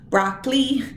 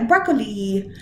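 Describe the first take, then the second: First: The word is said with two syllables. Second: The word is said with three syllables. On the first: The speaker calls it wrong. "you might say that this word has only two syllables" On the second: The speaker calls it right. "but really it has three"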